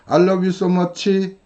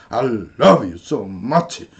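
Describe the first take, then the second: First: It is said on one flat, level line. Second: Stresses are slammed down, then stretched out. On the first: "직선이죠" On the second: "팡 내리꽂고 그 다음에 쭉 빼고"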